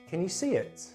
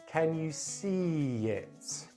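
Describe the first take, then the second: First: The phrase is said at normal speed. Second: The phrase is said very slowly. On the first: "say it for the third time at normal speed" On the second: "Then I'm going to say it very slowly"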